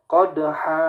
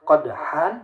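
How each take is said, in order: First: The word ends with a long a vowel. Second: The word ends with an n sound. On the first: "jadi qadha" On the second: "harusnya qadhan"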